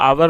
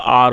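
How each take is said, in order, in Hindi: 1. इसे दो अक्षरों में बोला जाता है, ow-er। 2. इसे एक अक्षर में बोला जाता है, ar। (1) "ये आवर नहीं होता" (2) "आर होता है"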